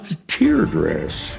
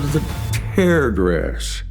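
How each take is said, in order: First: The word tear rhymes with ear. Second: The word tear rhymes with air. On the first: The dress is linked to crying tears. The speaker calls it wrong. "not the tear dress" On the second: The dress is made by tearing the fabric. The speaker calls it right. "we called it the tear dress"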